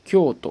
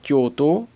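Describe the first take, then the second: First: The final o is short. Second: The final o is drawn out. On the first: The speaker calls it right. "juste un petit to à la fin" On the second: The speaker calls it wrong. "j'ai pas dit Kyoto"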